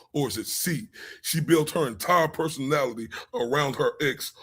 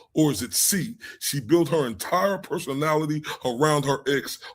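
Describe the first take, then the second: The two takes are said the same way.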